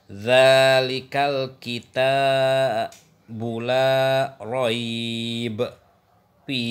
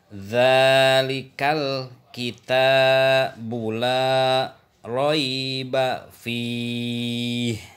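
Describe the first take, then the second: First: It stops after raib and again after fih. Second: It runs on through raib without a pause.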